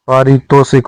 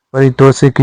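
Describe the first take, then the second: First: पारितोषिक with long first aa; correct form. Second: परितोषिक with short first a; wrong form. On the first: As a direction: open पारितोषिक on a long paa. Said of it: "होता है". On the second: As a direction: keep the opening pa of परितोषिक short. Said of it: "नहीं होता". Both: Shown as a demonstration.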